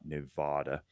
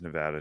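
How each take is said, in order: First: The middle vowel is an open 'ah' sound. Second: The middle vowel sounds like the vowel in cat. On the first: This is how people from other states say the name. The speaker calls it wrong. "pronounce our name with an H or a W" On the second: This is how locals say the name. The speaker calls it right. "it is Nevada"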